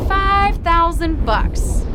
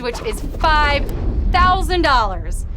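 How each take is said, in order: First: Five thousand bucks stretched out slowly, higher and louder; slow emphatic prize reveal. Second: Said in the usual way. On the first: Real, not acted.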